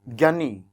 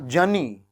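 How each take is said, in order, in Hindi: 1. शब्द की शुरुआत g की ध्वनि से होती है। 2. शब्द की शुरुआत j की ध्वनि से होती है। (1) "और इसको आपने क्या बोला?" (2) "और ये क्या होगा?"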